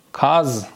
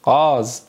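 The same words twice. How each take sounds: First: "کاز" opening on a k; Turkish pronunciation. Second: "قاز" opening on a throaty q; Persian pronunciation. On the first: Teacher modelling the Turkish word for students, "کاز" with k. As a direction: say "کاز" as kaz. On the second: Teacher translating for students, Persian "قاز" with throaty q. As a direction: say "قاز" as ghâz. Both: Shown as a demonstration. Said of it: "یعنی قاز".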